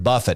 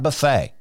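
First: The stress is on the first syllable. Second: The stress is on the second syllable. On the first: It means to strike with the fist. The speaker calls it right. "King Jimmy used this word buffet" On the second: It means a self-service meal. The speaker calls it wrong. "not buffet"

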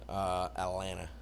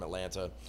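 First: The second t is dropped. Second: The second t is clearly pronounced. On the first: The speaker calls it right. "that's how we actually say it" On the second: The speaker calls it wrong. "I've been like enunciating the whole thing"

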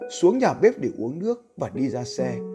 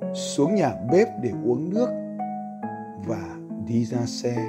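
First: It is read at a fast pace. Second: It is read at a slow pace.

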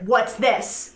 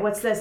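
First: It is said loudly with anger. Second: It is said softly and quietly. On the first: "they say it again with more anger" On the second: "It was the first a quiet"

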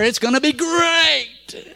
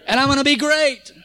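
First: It is said as a Tony the Tiger impression. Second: It is said in his own voice.

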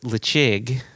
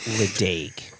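First: The name is pronounced differently from its spelling. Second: The name is pronounced just as it is spelled. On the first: The speaker calls it right. "So it's Lechig" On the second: The speaker calls it wrong. "it's not Ledaig"

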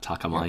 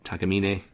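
First: The final E is silent, ending like 'mine'. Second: The final E is pronounced as a syllable. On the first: The speaker calls it wrong. "not Takamine. ... you definitely went for a silent E on there" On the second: The speaker calls it right.

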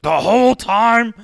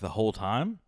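First: It sounds shocked, as realization hits. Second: It sounds vague and mildly puzzled.

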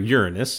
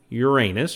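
First: The name is said the way that sounds less silly. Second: The name is said the way that sounds silly.

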